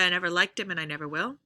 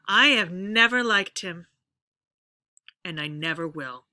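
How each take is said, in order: First: It is said smoothly without breaks. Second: It is said with breaks and pauses.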